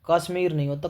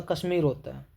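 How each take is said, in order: First: कश्मीर mispronounced as kaasmir; wrong long first vowel. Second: कश्मीर said kas-mir with short a; correct short first vowel. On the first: Teacher rejecting the misspelling, mispronounced on purpose. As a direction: lengthen and punch the first vowel of कश्मीर into kaa. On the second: Teacher correcting the misspelling, short-vowel pronunciation. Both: Shown as a demonstration.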